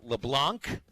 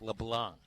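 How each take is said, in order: First: The final C sound is pronounced. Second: The final C sound is left silent. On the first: The speaker calls it wrong. "the correct pronunciation ... is not" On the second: The speaker calls it right. "So it's a silent C"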